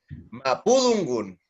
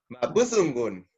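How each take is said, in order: First: The middle consonant sounds like a D. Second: The middle consonant sounds like a Z. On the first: This is how it is said in some territories. "si marca más la D" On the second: This is how it is said in other territories. "si carga más las Z"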